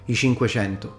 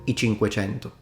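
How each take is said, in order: First: The c between vowels sounds like sh. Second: The c between vowels sounds like ch. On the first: This is the Tuscan way of saying it. "ch slides back to sh" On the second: This is the standard way of saying it. "rather than"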